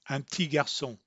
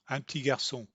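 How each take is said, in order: Both takes have the same delivery.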